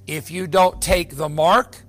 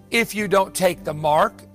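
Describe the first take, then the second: No difference in how they are said.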